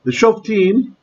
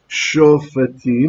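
First: No vowel is heard between f and t. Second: A short vowel is heard between f and t. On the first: The speaker calls it wrong. "I'm doing the Israeli pronunciation" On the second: The speaker calls it right. "because long vowel, so it should be vocal schwa"

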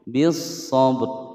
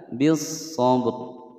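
Both takes have the same delivery.

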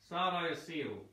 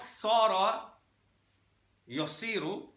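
First: It starts with a light, plain s sound. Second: It starts with a heavy, emphatic s sound. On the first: It is the root of the word seerah. The speaker calls it right. "With the scene" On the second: It is a word with a different meaning. The speaker calls it wrong. "not sara yasiru, because it changes the meaning"

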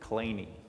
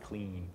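First: The name does not sound like 'clean'. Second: The name sounds like the word 'clean'. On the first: This is how the man himself said his name. "apparently that's how he pronounced it" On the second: This is how the presenter would normally say it. "though I would say clean"

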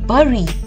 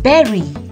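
First: The first vowel is not like the vowel in 'bed'. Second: The first vowel is like the vowel in 'bed'. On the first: The speaker calls it wrong. "it's not bury" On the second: The speaker calls it right. "it's bury"

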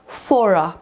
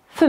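First: The final r sound is clearly pronounced. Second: The final r sound is left silent. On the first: "Jeżeli po słówku for występuje samogłoska, to wtedy to r jest wymawiane" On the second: "A jeżeli spółgłoska występuje po tym słówku for, tak jak tutaj, to będzie for me"

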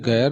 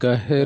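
First: The h sound is dropped and merged. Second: The h sound is clearly pronounced. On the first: The speaker calls it wrong. "ਗੈਰ ਨਹੀਂ ਕਹਿਣਾ" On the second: The speaker calls it right. "ਗਹਿਰ ਹਾਹੇ ਨੂੰ ਸਿਹਾਰੀ"

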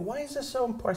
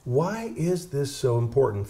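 First: It is said in a soft, gentle voice. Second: It is said in a full, plain voice.

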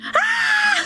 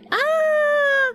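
First: The scream sounds genuinely terrified. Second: The scream sounds light and playful.

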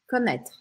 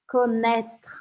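First: The word is said fast. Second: The word is said slowly.

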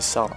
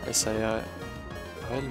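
First: The letters are said together as one word. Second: Each letter is said separately, one by one. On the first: The speaker calls it right. "mais c'est mieux de prononcer Sarl" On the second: The speaker calls it wrong. "Peut-être que ça se prononce Sarl, S-A-R-L"

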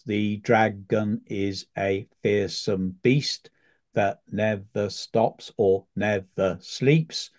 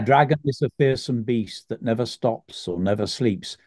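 First: The line is spoken slowly, syllable by syllable. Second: The line is spoken at a normal pace.

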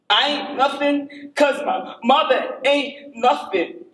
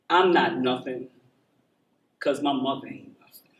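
First: It is said much louder. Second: It is said fairly quietly.

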